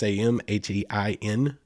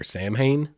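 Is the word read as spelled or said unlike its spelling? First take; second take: unlike spelling; as spelled. First: It is said in a way unlike its spelling. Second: It is read out following its spelling. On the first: The speaker calls it right. "It's Samhain. I don't have any clue how you get Samhain out of that" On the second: The speaker calls it wrong. "it looks like it's spelled like Samhain or Samhain"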